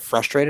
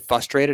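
First: The R after the F is pronounced. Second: The R after the F is dropped. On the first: The speaker calls it right. "there's a fucking R in that word" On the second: The speaker calls it wrong. "When people say frustrated instead of"

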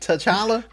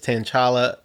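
First: The first syllable does not sound like 'tin'. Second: The first syllable sounds like the word 'tin'. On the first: The speaker calls it right. "There you go" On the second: The speaker calls it wrong. "Saying tin"

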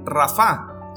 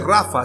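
First: The stress is on the last syllable. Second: The stress is on the first syllable. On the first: It is the name of God as healer. The speaker calls it right. "sino Rafa" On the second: It is the common nickname for Rafael. The speaker calls it wrong. "no se dice Rafa"

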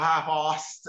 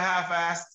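First: It is said in a British accent. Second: It is said in a non-British accent.

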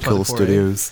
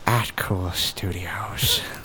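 First: It is said in a normal voice. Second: It is said in a Joker impression voice.

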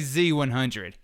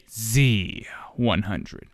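First: The Z sound is short and unemphasized. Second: The Z sound is stretched and emphasized. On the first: The speaker calls it wrong. "You wouldn't say Z100" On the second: The speaker calls it right. "You emphasize on that E"

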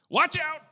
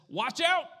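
First: It is screamed loudly. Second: It is said at normal volume.

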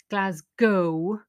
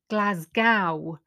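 First: The last syllable sounds like go. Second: The last syllable rhymes with cow. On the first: The speaker calls it right. "but the pronunciation is Glasgow" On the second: The speaker calls it wrong. "all the Americans were saying Glasgow"

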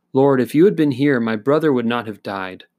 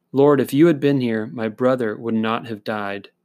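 No difference in how they are said.

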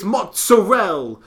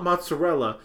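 First: It is said with Italian-American overpronounced pronunciation. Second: It is said with plain American English pronunciation. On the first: The speaker claims Italian heritage. The speaker calls it right. "people who are, like, of Italian heritage, will be like" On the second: This is the common way others say it. The speaker calls it wrong. "it's not mozzarella"

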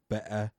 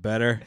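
First: The middle T is dropped, Cockney style. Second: The middle T is clearly pronounced. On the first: "they never pronounce the T. They always say, like, better" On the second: "instead of better"

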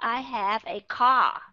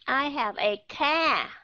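First: The vowel in car is an open o-like sound. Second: The vowel in car is a flat Vietnamese a. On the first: The speaker calls it right. "Nó rõ ràng là âm O" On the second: The speaker calls it wrong. "một số các bạn lên trên đây vẫn đọc là"

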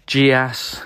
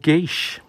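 First: Soft j start, two syllables ending in 'ass'. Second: Hard g start, one syllable ending in 'eesh'. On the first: The speaker calls it wrong. "with the soft G and the ass at the end" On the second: The speaker calls it right. "or geesh"

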